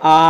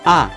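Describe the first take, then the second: First: The pitch stays high and level. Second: The pitch drops sharply from high to low. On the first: "Nada pertama itu datar ya, tinggi dan datar" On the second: "yang keempat itu dibanting dari atas turun ke bawah"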